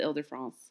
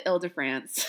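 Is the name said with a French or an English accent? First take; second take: French; English. First: The name is said with a French accent. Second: The name is said with a flat English accent.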